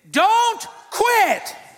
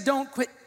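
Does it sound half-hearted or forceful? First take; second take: forceful; half-hearted. First: It is said forcefully, with conviction. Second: It is said weakly, without conviction.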